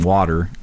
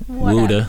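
First: Water is said with a plain T and R. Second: Water is said as 'wuda', dropping the R. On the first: The speaker calls it wrong. "you're saying it wrong" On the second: The speaker calls it right. "There you go. Gotta add the ooh"

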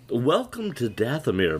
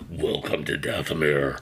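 First: The voice sounds light and feminine. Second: The voice sounds demonic and menacing. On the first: "you got this feminine kind of voice" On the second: "Behind it, it's like"

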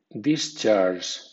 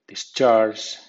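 First: The stress is on the first syllable. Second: The stress is on the second syllable. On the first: It is used as a noun. "Con acento fuerte ... discharge, nombre" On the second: It is used as a verb. "Con acento débil ... discharge, verbo"

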